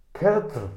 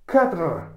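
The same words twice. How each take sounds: First: "Kedr" called out loud and high, clipped to "ket"; loud try of the word. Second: "Kedr" shouted high, clipped to "ket"; loud, sure "Kedr"; shouted try of the word. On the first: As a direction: bark out "Kedr" as a test. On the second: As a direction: belt out "Kedr" as the final take. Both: Shown as a demonstration. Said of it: "¿O cómo es?".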